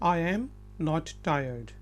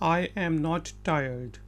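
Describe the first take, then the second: Both takes have the same delivery.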